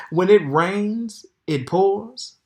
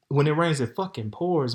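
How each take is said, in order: First: Slow, higher and louder, leaning on each word; drawn-out exclaim. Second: Said in the usual way. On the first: Real, not acted. Telling viewers her bad luck, slow loud emphasis. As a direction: stretch the proverb out like a wail.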